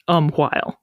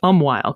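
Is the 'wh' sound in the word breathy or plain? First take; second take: breathy; plain. First: The wh sound is breathy, with an audible h. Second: The wh sound is a plain w, no h. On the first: This is the older or Scottish pronunciation. "in Scottish English, it is still pronounced umwhile" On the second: This is the usual modern pronunciation. "you and I are inclined to say just umwhile, because we don't usually enunciate that H sound"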